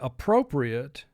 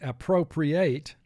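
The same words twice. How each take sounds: First: The last syllable is not said as 'ate'. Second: The last syllable is said as 'ate'. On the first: Something is acceptable or suitable. "If you say appropriate, ... means that he did something that was acceptable" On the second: To take something away for a use. "which is actually the way it's marked on this screen, then it means to take away"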